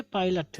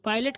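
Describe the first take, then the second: First: पायलट ending in a short "lut"; corrected pronunciation. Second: पायलट ending in "let"; common pronunciation. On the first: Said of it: "but ये पायलट है". (पायलट को "पाइलट") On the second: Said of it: "हम लोग पायलट कहते हैं". (पायलट को "पाइलेट") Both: Shown as a demonstration.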